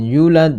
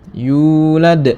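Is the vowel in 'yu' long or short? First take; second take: short; long. First: The vowel in 'yu' is cut short. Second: The vowel in 'yu' is held long. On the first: The speaker calls it wrong. "jangan yulad, salah" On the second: The speaker calls it right. "Panjangnya dua harokat atau satu alif"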